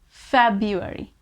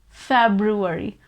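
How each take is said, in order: First: The R after the B is silent. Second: The R after the B is pronounced. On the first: "We just don't pronounce that R" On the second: "if you want to pronounce that R, so that is also not wrong"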